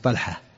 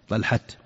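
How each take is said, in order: First: The word ends in an h sound. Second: The word ends in a t sound.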